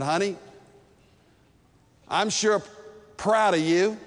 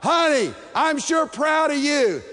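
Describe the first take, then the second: First: It is said at a quiet, romantic volume. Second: It is said very loudly, almost shouted.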